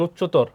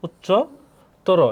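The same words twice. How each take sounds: First: উচ্চতর as "uchchotor", ending on r; spelling-style উচ্চতর, closed on the r; written-form reading. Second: উচ্চতর very slowly in parts, "uchcho... toro"; drawn-out teacher's model of উচ্চতর ending in "toro"; sounded-out demo. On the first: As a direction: say উচ্চতর whole with no final vowel. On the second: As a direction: split উচ্চতর, rounding the last vowel to o. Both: Shown as a demonstration. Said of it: "অ এর উচ্চারণ উকার হবে".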